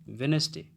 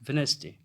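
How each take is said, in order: Both takes have the same delivery.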